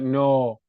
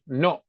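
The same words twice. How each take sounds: First: The vowel is drawn out and carried on. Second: The vowel is clipped short with breath cut off. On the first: The speaker calls it wrong. "Don't don't carry it. Don't like no" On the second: The speaker calls it right. "just no. Chop off the breath"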